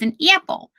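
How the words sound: The A in apple has a Scranton-style vowel. "In Scranton, they say their A's differently"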